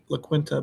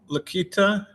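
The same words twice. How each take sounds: First: The name is pronounced the English way. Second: The name is pronounced the Spanish way. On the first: "I've been anglicizing it, calling it La" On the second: "I think that's how you pronounce it in Spanish"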